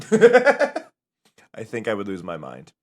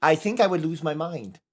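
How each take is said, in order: First: Slow, lower, louder with a laugh through "I think I would lose my mind"; laughing, drawn out. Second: Said in the usual way. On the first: Shown as a demonstration. Laughing at the idea of a voice stream, drawn out. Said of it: "laughing retake". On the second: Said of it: "repeated line".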